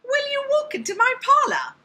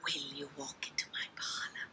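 First: Very high, loud character voice; high-pitched voice. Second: Low whispered character voice; whispering spider. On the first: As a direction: shoot way up high, squeaky and loud. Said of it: "high-pitched voice or a deep voice". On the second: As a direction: whisper the invitation softly, very low. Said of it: "let's try some different voices". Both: Shown as a demonstration.

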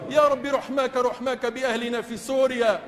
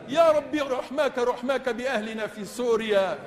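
No difference in how they are said.

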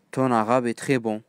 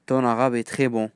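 Both takes have the same delivery.

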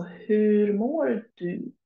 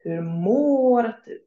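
First: "hur mår du" stretched very slowly, long vowels; slow model phrase. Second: "Hur mår du?" slow with a long, stressed "mår"; slow, careful phrase. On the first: Teacher showing learners the question word hur, very slowly. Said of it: "the question word hur". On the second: Teacher modelling the long å in mår, slowly. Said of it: "for example, in mår". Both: Shown as a demonstration.

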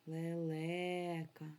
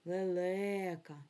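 First: Лелека said very slowly, le-LE-ka, stress clearly on the middle; slow stress demonstration for the class; stress demo. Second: Лелека said slowly, le-LE-ka, middle syllable leaned on; slow teaching take for pupils; stress on the middle syllable. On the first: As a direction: hold each syllable and lean on the middle one. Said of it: "Де в нас стоїть наголос у слові лелека?". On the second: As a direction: draw out лелека with the weight on the second е. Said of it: "Скажіть ще раз слово лелека". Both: Shown as a demonstration.

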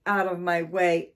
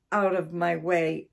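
First: Louder, furious repeat; angry shout. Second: Angry shout. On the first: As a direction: shout it again, angrier. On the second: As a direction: drive the cats out, yelling. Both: Acted. Angry man chasing cats out.

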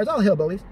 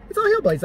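First: Said in the usual way. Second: "hillbillies" jumps way up in pitch, mocking; squeaky mock outrage. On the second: Shown as a demonstration. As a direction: repeat it much higher, scoffing at "hillbillies".

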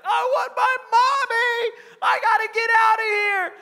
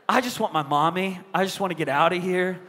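First: Very high, loud imitation of a wailing child; hammed-up little boy screaming in tears; crying scream. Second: Said in the usual way. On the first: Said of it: "he starts crying and screaming". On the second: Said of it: "where you're like".

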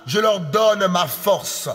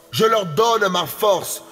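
The two takes are said the same way.

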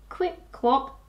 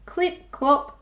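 Both takes have the same delivery.

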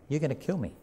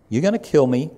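First: Quiet warning. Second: Louder, punching it out; loud emphatic warning. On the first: Jesus quietly warning those who plot against him. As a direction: lean in and say it softly, like a secret. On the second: Jesus declaring their plot aloud to the crowd, emphatic. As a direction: hammer the point home to the crowd. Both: Acted.

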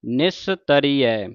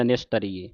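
First: ਨਿਸਤਰੀਐ slow, ending in open 'ai', 'nistaree-ai'; correct ending. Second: ਨਿਸਤਰੀਏ ending in a short 'ye', 'nistariye'; wrong ending. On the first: Teacher shows the reading, ਨਿਸਤਰੀਐ slow with final ai. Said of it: "ਇਹਨੂੰ ਪੜ੍ਹਨ ਨਿਸਤਰੀਐ". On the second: Teacher shows the misreading, ਨਿਸਤਰੀਏ with final e. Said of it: "ਜੇ ਨਿਸਤਰੀਏ ਪੜ੍ਹਦਾ". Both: Shown as a demonstration.

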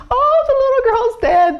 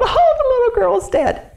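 First: High, loud mourning wail. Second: High, loud mourning wail again. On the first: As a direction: wail it out in grief. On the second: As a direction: keep wailing in grief. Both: Acted. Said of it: "they wailed".

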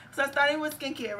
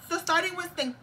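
First: Said in the usual way. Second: Lingering Spanish accent. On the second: Real, not acted. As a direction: still stuck in a Spanish accent. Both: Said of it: "let's get my voice".

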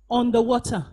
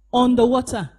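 Both takes have the same delivery.

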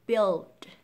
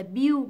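First: Loud "build" with lax I and dark L; correct build. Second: "build" said as "biu", ending in U; wrong build. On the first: Teacher assembling the sounds, "build" with full L. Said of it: "Đầu tiên là âm B". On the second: Teacher rejecting the error, "build" as "biu". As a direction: leave L and D off "build". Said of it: "lý do vì sao không gọi là". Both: Shown as a demonstration.

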